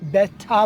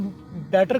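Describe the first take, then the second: First: The t bursts strongly and it ends in 'ah'. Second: The word ends with a pronounced r sound.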